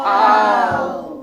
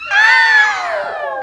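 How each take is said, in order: First: It is said in a very low voice. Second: It is said in a very high voice.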